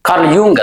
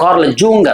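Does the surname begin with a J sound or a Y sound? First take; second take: Y sound; J sound. First: The surname begins with a Y sound. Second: The surname begins with a J sound. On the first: The speaker calls it right. "ಅದು ಸರಿಯಾಗಿ ಉಚ್ಚಾರ" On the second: The speaker calls it wrong. "Karl ಯೂಂಗ್ ಅಥವಾ Karl ಜೂಂಗ್ ಅಂತಾರೆ"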